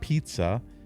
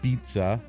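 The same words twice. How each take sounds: First: The word starts with a p sound. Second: The word starts with a b sound. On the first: "not pizza" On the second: "we're calling it B I T Z A"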